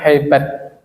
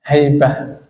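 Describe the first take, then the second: First: The word ends with a t sound. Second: The word ends with an h sound. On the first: This is how Indonesians read it. "kalau orang Indonesia kan bacanya tetap haibat" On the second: This is how Arabs read it.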